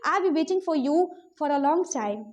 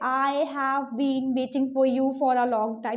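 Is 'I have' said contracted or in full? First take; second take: contracted; full. First: 'I have' is shortened into one contracted syllable. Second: 'I have' is said as two full words. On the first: The speaker calls it right. "You can simply say" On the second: The speaker calls it wrong. "वहां पे ऐसे नहीं बोलते"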